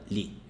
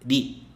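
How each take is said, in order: First: The consonant is a clear L sound. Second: The consonant is a light tapped R. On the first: The speaker calls it wrong. "nunca li" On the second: The speaker calls it right. "originalmente o som é li"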